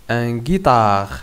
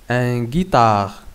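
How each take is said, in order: No difference in how they are said.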